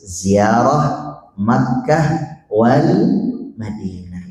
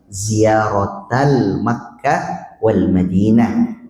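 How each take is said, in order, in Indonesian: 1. Ziyarah berakhir dengan h dengan jeda setelahnya. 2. Ziyarah berakhir dengan t yang tersambung ke kata berikutnya. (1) "Kalau pengen bacanya diputus"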